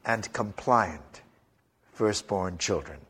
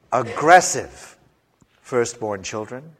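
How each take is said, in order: First: Softer, slow and yielding on compliant; meek. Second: Forceful. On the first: Preacher describing compliant firstborns, meek and soft. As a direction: sound mild and obedient. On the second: Preacher describing aggressive firstborns, forceful. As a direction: sound pushy and strong. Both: Shown as a demonstration. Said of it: "They come in two varieties".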